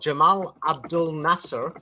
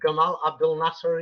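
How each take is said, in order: First: The name is said in a non-Egyptian pronunciation. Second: The name is said in an Egyptian pronunciation.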